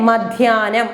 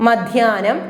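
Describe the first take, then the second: The two takes are said the same way.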